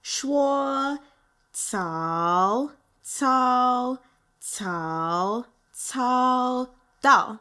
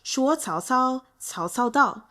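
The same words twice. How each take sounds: First: It is said slowly and deliberately. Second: It is said at normal speed.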